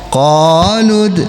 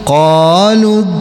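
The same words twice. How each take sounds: The two takes are said the same way.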